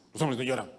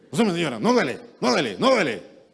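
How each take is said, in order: First: Said in the usual way. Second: Louder, higher toughening bark; a father telling his son it doesn't hurt; tough-love shout. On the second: Retold or imitated. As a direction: push him to toughen up. Hardening a grown boy.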